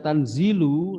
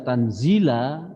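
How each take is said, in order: First: The word ends with a 'u' vowel. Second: The word ends with an 'a' vowel. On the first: The word is the predicate of an implied subject. "Imam Sayuti membaca Tanzilu, narkibnya adalah rofa" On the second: The word is an absolute object of an implied verb. "kita membaca Tanzila, itu narkibnya jadi maf'ul mutlak"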